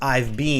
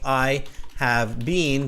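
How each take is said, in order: First: The word have is contracted to 've. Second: The word have is said in full. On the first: The statement sounds more natural and relaxed. "versus I've been" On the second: The statement carries more emphasis. "it carries more emphasis"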